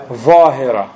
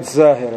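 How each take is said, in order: First: ظاهرة with heavy th-like ظ, loud; correct emphatic ẓā. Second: زاهرة with a plain z sound; wrong plain z. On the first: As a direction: model ظاهرة with a thick interdental first sound. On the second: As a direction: begin زاهرة with a buzzing z, as the mistake. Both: Shown as a demonstration. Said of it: "Not زاهرة".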